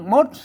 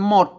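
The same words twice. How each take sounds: First: The word is said with a rising tone. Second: The word is said with a low tone. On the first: "อันภาษาละนาเปิ้นออกเสียงจัตวาครับ" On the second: "ภาษาไทยเปิ้นหมดนะครับ ออกเสียงเอกนะครับ"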